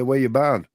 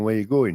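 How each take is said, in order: First: "barn" for going, said broad Yorkshire; Yorkshire "Where you barn?" with a flat broad barn. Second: Said in the usual way. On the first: Shown as a demonstration. Mate greeting a mate in broad Yorkshire dialect. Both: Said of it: "I'd always say barn rather than".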